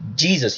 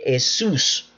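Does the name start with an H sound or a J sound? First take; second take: J sound; H sound. First: The name starts with an English J sound. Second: The name starts with a Spanish H-like sound. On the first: "you never hear the name Jesus" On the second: "you hear Jesus"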